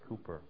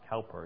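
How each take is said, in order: First: The first syllable sounds like 'coo'. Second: The first syllable sounds like 'cow'. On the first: The speaker calls it right. "it's Cowper" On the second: The speaker calls it wrong. "So it's not Cowper"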